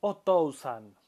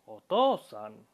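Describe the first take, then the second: First: Otousan with a sounded u; the wrong way: otousan as o-to-u-san. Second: Otosan with a long o; the correct way: otosan, stretched o; right otosan. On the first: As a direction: otousan with the u spoken. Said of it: "no decimos". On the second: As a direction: otosan held on the o. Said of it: "sino decimos otosan". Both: Shown as a demonstration.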